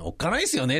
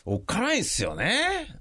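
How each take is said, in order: First: Said in the usual way. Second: Higher, ominous-sounding aside; dramatic scary. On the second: Shown as a demonstration. Speaker musing on aging parents, mock ominous tone. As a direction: play up the fear a little. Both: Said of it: "っていうこともないけど".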